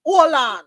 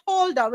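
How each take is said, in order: First: Louder hold on with no H; Jamaican hold on. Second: The way we don't say hold on; wrong hold on. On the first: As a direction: hold on as ol-on, dropping the H. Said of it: "we say hold on". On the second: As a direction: hold on with a clear H. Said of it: "we don't say hold on". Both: Shown as a demonstration.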